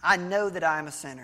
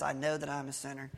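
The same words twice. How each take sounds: First: Said in the usual way. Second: Softer and faster, rattled off as a repeat; quick quiet echo. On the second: Retold or imitated. The guy echoing the older man's line, softly and fast. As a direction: mumble it back quickly, just going along.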